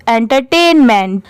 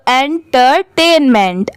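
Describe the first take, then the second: First: Said in the usual way. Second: Syllable by syllable. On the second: Shown as a demonstration. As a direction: break "entertainment" into its parts, with small gaps. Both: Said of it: "सब साथ में मिला देंगे".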